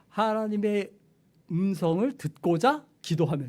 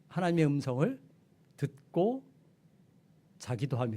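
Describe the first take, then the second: First: The break comes right after 듣고자. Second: The break comes right after 듣고. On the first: One prays in order to hear the voice. The speaker calls it right. "이렇게 이렇게 가야 되죠" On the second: One hears the voice and also sleeps. The speaker calls it wrong. "이렇게 읽으면 아 하나님의 음성을 듣, 듣다가 잠도 자는구나 이렇게 읽을 수 있어요"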